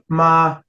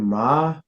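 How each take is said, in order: First: The pitch stays high and level. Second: The pitch starts low and rises. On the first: "your high neutral tone" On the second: "your low rising tone"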